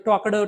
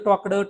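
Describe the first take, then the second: The two takes are said the same way.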